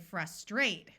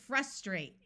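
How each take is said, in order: First: British accent, stress on the second syllable. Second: American accent, stress on the first syllable. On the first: "the British say frustrate, where the second syllable is accented" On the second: "we have the word frustrate in American English with a short U sound"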